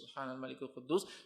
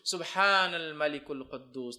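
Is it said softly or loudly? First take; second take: softly; loudly. First: It is said softly. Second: It is said loudly.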